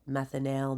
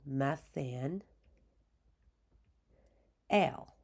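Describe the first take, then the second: First: The final syllable 'al' is said plainly. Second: The final syllable 'al' is strongly emphasized.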